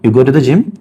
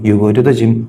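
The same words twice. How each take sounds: First: The voice rises at the end like a question. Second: The voice falls at the end like a statement. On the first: It asks whether it is true. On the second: It states a fact.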